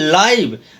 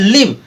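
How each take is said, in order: First: The vowel is a long 'eye' sound. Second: The vowel is a short 'ih' sound. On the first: It means alive. "दूसरे वाले का हो रहा है लाइव" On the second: It means to reside. "Pronunciation हो रहा है लिव"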